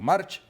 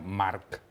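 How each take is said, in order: First: The name is said with Castilian pronunciation. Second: The name is said with Mallorcan pronunciation. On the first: "digámoslo en castellano" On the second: "creo que se pronuncia Marc en, en mallorquín"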